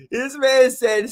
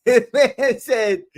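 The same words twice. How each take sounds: First: Said in the usual way. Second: Laughing through the words; giggling as he starts the story. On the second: Real, not acted. Streamer laughing as he retells a viewer's joke.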